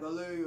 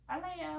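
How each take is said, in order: First: Mild lower call. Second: High squeaky call of the name; higher playful name call. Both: Shown as a demonstration. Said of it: "the man's voice or the woman's voice or a squeaky voice".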